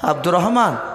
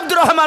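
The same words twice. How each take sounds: First: The name is said softly and gently. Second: The name is shouted loudly. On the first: The sleeper wakes calmly. The speaker calls it right. "আস্তে করে ডাকো" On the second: The sleeper is startled awake. The speaker calls it wrong. "কানের গুড়তে যে এই আব্দুর রহমান উঠ, এরকম করা যাবে না"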